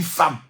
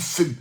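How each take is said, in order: First: Femme said short and open, "fam"; everyday pronunciation. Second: Femme said with a long rounded vowel, like "feumme"; correct pronunciation. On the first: Preacher showing how people usually say femme, "fam". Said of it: "Mais on dit femme". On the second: Preacher showing how femme should be said, "feumme". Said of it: "On doit dire femme". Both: Shown as a demonstration.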